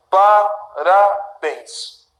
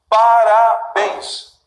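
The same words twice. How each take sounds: First: "Parabéns" very slowly, syllable by syllable; divided into syllables. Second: Very slow "Parabéns" landing on BÉNS; stress on last syllable. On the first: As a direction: break "Parabéns" into pa-ra-béns. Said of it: "que eu acabei de dividir". ("Parabéns" separado em sílabas, bem devagar) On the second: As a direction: stretch out "Parabéns" toward a firm BÉNS. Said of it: "é sempre a última". ("Parabéns" devagar, com força no BÉNS) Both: Shown as a demonstration.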